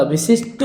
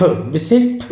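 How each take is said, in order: First: विशिष्ट ending in a hard "ṭ", no puff; unaspirated t ending. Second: विशिष्ट ending in a breath-released "ṭh"; aspirated th ending. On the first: Teacher correcting the word, विशिष्ट with final "ṭ". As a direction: say विशिष्ट as "vishisht". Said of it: "विशिष्ट होता है". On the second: Teacher showing the mistake, विशिष्ट with final "ṭh". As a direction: say विशिष्ट as "vishishth". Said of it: "विशिष्ट नहीं होता". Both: Shown as a demonstration.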